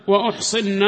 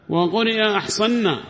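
First: أحصن said with damma, u-ḥṣinna; dammed hamza reading. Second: أحصنا said with fatha, a-ḥṣanna; opening hamza reading. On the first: Teacher demonstrates the damma reading of أحصن to students. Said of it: "بضمها". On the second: Teacher demonstrates the fatha reading of أحصنا to students. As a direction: open the hamza clearly in أحصنا. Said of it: "بفتح الهمزة". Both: Shown as a demonstration.

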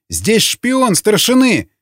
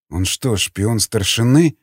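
First: High, drawn-out alarm cry; full-throated yell. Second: Understated astonishment, drawn out slowly; puzzled, slow question rising at the end; amazed inward question. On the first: Prisoner denouncing his interrogator as a spy, yelling. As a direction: raise the alarm, slow and high. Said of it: "заорал во всё горло Николай". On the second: Prisoner silently wondering about his interrogator, amazed but restrained. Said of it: "с изумлением подумал Васнецов". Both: A narrator's reading.

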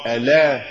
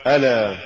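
First: Deliberate slip on ألا; mispronounced recitation. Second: Careful model of ألا; correct recitation. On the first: Narrator shows learners the error in ألا, wrong reading. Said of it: "وكأن يقال". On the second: Narrator shows learners the fix for ألا, correct reading. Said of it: "والصواب". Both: Shown as a demonstration.

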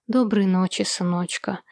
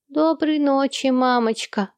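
First: Said in the usual way. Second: Put-on higher, slow child's voice; child's goodnight. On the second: Ernie saying goodnight to his mother, as an eager child. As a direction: say it like an eager little boy.

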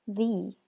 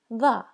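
First: "the" said as "thee", long ee; thee sound. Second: "the" said as "thuh", short and weak; thuh sound. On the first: Teacher showing the word before a vowel, said thee. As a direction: stretch "the" into "thee". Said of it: "When followed by a vowel, it sounds like". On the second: Teacher showing the word before a consonant, said thuh. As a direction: clip "the" to a quick "thuh". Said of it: "but when followed by a consonant, it sounds like". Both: Shown as a demonstration.

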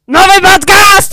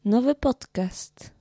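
First: Loud, high, excited call; shouted announcement. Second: Said in the usual way. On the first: Shown as a demonstration. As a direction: belt it out like a big reveal. Repeated takes of an announcement.

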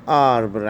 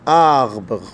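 First: آربر said quickly with a tapped Arabic ر, the normal way; آربر with a tapped Arabic ر instead of the throat R; rolled Arabic R. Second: آربر with the R from the throat like غ; آربر said with a ghain-like R; French throaty R. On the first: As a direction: say آربر with a plain tongue-tip Arabic R. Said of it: "ممكن نقولها آربر عادي". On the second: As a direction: give آربر a guttural French R. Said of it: "غين أو زي الراء في اللغة العربية". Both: Shown as a demonstration.

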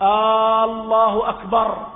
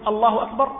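First: الله drawn out very long and loud; a wrongly elongated takbir; over-stretched takbir. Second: الله أكبر short and decisive; the correct firm takbir. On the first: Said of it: "تخرجها عن معناها". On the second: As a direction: clip الله أكبر cleanly. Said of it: "ولكن حينما تقول". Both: Shown as a demonstration.

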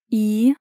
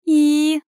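First: Mildly dreading, questioning "И?"; apprehensive mumble. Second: Higher, louder, doomed "И?". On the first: Heroine awaits bad news by phone, apprehensive. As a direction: prompt her with a touch of dread. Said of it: "похолодев, промямлила я". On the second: Heroine repeats her question on the phone, doomed. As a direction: press for more, expecting the worst. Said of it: "повторила я обречённо". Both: A narrator's reading.

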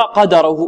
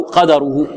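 First: قدره with a fatha on the dal; reading qadrahu. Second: قدره said with a different vowel on the dal; reading qadarhu variant. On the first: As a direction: read قدره with an open a. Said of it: "هناك من يقرأ". (قراءة قدَره بالفتح) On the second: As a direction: give قدره the other reading. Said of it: "بالفتح و والسكون". (قراءة أخرى لقدره) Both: Shown as a demonstration.

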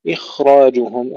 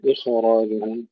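First: إخراجهم with a still, soft-flowing kha; soft sukun on the kha. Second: إخراجهم with the kha bounced into an extra short vowel; wrong bouncing kha. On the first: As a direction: let the خ in إخراجهم flow with no vowel after it. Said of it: "نسكن الخاء مع الرخاء". (إخراجهم بخاء ساكنة رخوة) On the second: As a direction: break the خ in إخراجهم with a little vowel. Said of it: "ولا نقول". (إخراجهم بقلقلة الخاء خطأً) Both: Shown as a demonstration.

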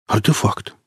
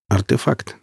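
First: Exhaled. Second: Said in the usual way. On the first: Acted. Hook breathes out the word in awe. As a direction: let «Артефакт» out on a breath. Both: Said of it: "выдохнул Хук".

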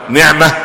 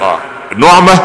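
First: نعمه with i, niʕma; kasra reading. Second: نعمه with u, nuʕma; damma reading. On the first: Sheikh recapping the bestowal meaning: نعمه as niʕma. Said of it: "الانعام نفسه". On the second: Sheikh recapping the joy meaning: نعمه as nuʕma. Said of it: "المسره". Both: Shown as a demonstration.

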